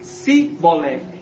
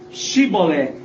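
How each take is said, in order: First: The word begins with an s sound. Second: The word begins with an sh sound. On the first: This marks the speaker as an outsider. The speaker calls it wrong. "eles falaram Sibolé. E quem falasse errado era morto" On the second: This is the password that had to be said. The speaker calls it right. "eles não falaram Shibolé"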